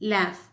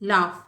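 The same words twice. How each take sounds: First: It is said in an American accent. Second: It is said in a British accent. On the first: "second பண்ணது American English" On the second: "first நான் pronounce பண்ணுறது எல்லாமே British"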